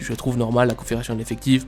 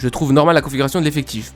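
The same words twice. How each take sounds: First: It is said in a curt, dry voice. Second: It is said in a raised, elevated voice. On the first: The speaker calls it right. "qui répond vraiment sec" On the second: The speaker calls it wrong. "pas sur un ton aussi élevé comme euh, je le fais moi"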